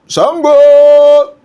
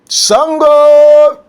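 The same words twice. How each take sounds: No difference in how they are said.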